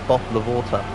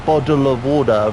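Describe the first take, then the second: First: The t's are said as a clear t sound. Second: The t's are softened to a d sound. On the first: "rather than" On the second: "They they think T's are D's, mate. So they'll go"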